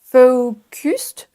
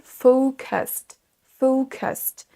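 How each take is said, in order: First: Focused as foh-KUST with French u, rising; wrong French vowel. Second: Focused as FOH-kəst, weak second vowel; schwa pronunciation. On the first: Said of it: "Donc n'hésite pas". (focused avec un U français, montant) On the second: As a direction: say focused with a schwa, slowly falling. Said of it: "C'est quasiment comme un son E". (focused avec un schwa, FO-keust) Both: Shown as a demonstration.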